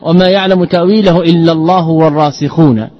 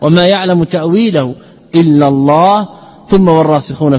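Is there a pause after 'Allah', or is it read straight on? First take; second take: straight on; pause. First: The words run on without a pause. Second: There is a pause after the word Allah. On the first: The firmly grounded scholars also know its interpretation. "وإذا عطفنا" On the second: Only God knows its true outcome. "أكثر السلف على الوقف"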